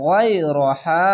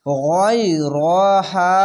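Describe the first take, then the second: First: গয়রহা very slow with the final হা stretched and rising; drawn out recitation. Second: গয়রহা very slow, the long vowel stretched one alif; drawn out recitation. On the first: Teacher repeating গয়রহা slowly after spelling it. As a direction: draw out গয়রহা, lifting the end. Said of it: "হা আলিফ যাবে হা". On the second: Teacher showing students how to stretch গয়রহা. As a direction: stretch গয়রহা slowly and evenly. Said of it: "এক আলিফ টেনে পড়বেন". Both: Shown as a demonstration.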